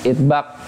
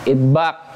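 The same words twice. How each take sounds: The two takes are said the same way.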